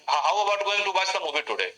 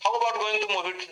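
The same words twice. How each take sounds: First: Fuller line said slowly, falling at the end; slow demo English. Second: Slow, careful English line; slow demo English. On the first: Teacher giving students the fuller subtitle line slowly. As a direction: model the complete sentence slowly. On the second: Teacher modelling a subtitle line slowly. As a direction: spell out the English slowly for students. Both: Shown as a demonstration.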